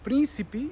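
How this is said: The unstressed vowels are pronounced fully and clearly. This is how it is said in Brazil. "might be príncipe in Brazil"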